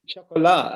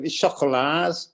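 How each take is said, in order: First: Chocolat with a silent final t, shaʊ-ko-LAH; French pronunciation. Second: Scouse accent. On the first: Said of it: "said with your best French accent". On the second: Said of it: "say it in a Scouse accent". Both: Shown as a demonstration.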